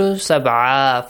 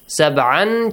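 First: The word ends with a long a, no n. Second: The word ends with an n sound. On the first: "changes to" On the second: "changes to"

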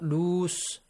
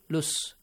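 First: The vowel is long and drawn out. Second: The vowel is short and clipped. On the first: The speaker calls it wrong. "not loose. We don't have loose" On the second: The speaker calls it right. "lus, not loose. Quickly change that mad letter to a short vowel sound"

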